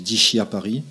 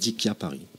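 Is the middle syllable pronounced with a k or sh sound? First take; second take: sh; k. First: The name is said the French way, with sh. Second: The name is said the Italian way, with k.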